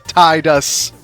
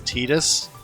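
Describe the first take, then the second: First: The first syllable sounds like 'tie'. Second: The first syllable does not sound like 'tie'. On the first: The speaker calls it right. "The proper pronunciation: T I E hyphen D U S" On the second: The speaker calls it wrong. "I hate the fact that they in Kingdom Hearts basically canonically made the confirmed the pronunciation of his name as"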